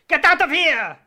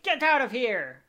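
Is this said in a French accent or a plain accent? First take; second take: French accent; plain accent. First: It is said in a put-on French accent. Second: It is said in the speaker's ordinary accent.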